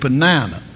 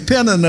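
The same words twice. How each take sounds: First: The name is said the Southern US way. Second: The name is said the Northern US way.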